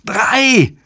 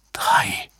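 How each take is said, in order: First: Very high, piercing narrated screech; screeched shout. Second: Voiceless, disbelieving whisper; stunned whisper. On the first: David yelling from Spain into the microphone, high screech. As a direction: screech the word out at the top of your pitch. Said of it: "kreischte Davids Stimme". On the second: Susan stares at the fingers and understands, stunned whisper. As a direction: whisper it as if you cannot believe it. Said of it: "flüsterte Susan fassungslos". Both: A narrator's reading.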